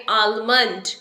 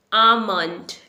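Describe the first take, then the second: First: "आलमंड" with the L sounded; common mispronunciation. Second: "आमंड" with no L at all; silent L. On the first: Teacher showing the common error, L pronounced. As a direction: say "आलमंड" with a clear L before the M. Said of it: "इसे हम बोलते हैं". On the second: Teacher modelling the correct word, L silent. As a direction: say "आमंड", long first vowel straight into M. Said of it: "L is silent". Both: Shown as a demonstration.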